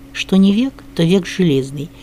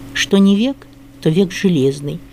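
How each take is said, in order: The two takes are said the same way.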